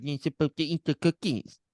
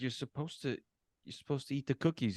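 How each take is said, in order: First: High-pitched, mocking parrot of her words; mocking mimicry. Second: Said in the usual way. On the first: Rude Santa mimics the girl about cookies, mocking. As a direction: mimic her snidely in a put-on voice. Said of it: "He, like, mimics her". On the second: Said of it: "She's like".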